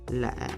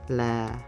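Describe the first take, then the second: First: The pitch drops low and short. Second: The pitch is low on the syllable. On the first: "the lowest tone given a low dropping pitch ... a short bass effect" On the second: "This tone gives a low pitch"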